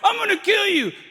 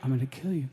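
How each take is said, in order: First: It is shouted like a blustering drunk. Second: It is said calmly and menacingly.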